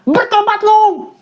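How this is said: It is said in a harsh, angry tone.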